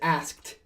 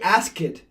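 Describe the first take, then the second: First: The ending is a plain t, one syllable. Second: The ending is an extra syllable, like 'it'. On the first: The speaker calls it right. "It's asked" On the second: The speaker calls it wrong. "If you say ask it, somebody thinks you're saying another word"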